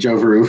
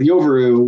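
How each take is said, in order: First: The name begins with a J sound. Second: The name begins with a Y sound. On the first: The speaker calls it wrong. "I called it Joveru for the longest time until they told me that uh, uh, the J was pronounced like a Y" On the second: The speaker calls it right. "the J was pronounced like a Y"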